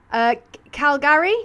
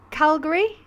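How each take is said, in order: First: Calgary said high and questioning, as KAL-gar-ee with a rising tune. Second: Calgary clipped and rising, as KAL-guh-ree. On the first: Streamer testing how locals say Calgary, rising tune. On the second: Streamer trying a second way to say Calgary. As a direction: try Calgary again, quicker, with a rising tune. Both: Shown as a demonstration. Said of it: "Isn't it Calgary, how they say that?".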